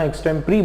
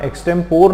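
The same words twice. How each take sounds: First: एक्सटेम्परी said ex-tem-puh-ree, ending in ree; the right way: एक्सटेम्परी with four syllables; right pronunciation. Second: एक्सटेम्पोर said ex-tem-pore, ending on a long pore; the wrong way: एक्सटेम्पोर with final pore; wrong pronunciation. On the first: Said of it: "एक्सटेम्परी बोलना". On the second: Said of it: "एक्सटेम्पोर नहीं बोलना". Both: Shown as a demonstration.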